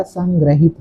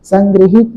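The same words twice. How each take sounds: First: संग्रहित said with a short a after ग्र: san-gra-hit; correct pronunciation. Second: संग्रहित said with an i after ग्र, like संग्रिहित; wrong pronunciation. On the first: Teacher corrects the word for students, संग्रहित pronounced san-gra-hit. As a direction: say संग्रहित with "gra", not "gri", in the middle. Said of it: "संग्रहित होता है". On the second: Teacher shows students the wrong form, संग्रहित mispronounced as san-gri-hit. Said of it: "संग्रहित नहीं होता". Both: Shown as a demonstration.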